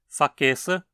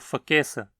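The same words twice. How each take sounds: First: The prefix is a full syllable with a vowel. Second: The prefix is a bare consonant without a vowel.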